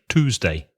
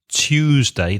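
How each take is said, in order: First: It has no y sound after the t. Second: It has a y sound after the t. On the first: "in American English, I don't think they would have that Y sound ... they'd say Tuesday" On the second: "there's a y, like a Y sound in Tuesday ... They wouldn't say Tuesday"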